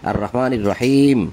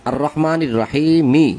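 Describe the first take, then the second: First: The last word ends without its final vowel. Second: The last word ends with a final vowel. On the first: The reader stops at this point. "শেষের অক্ষর অর্ধেক উচ্চারণ হয় থেমে গেলে" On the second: The reader continues without stopping. "ওখানে আছে"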